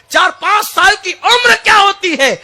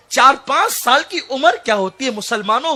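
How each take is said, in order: First: The question thrown out high and loud; preaching shout. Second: Said in the usual way. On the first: Real, not acted. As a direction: hammer the question home. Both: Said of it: "غور تو کرو".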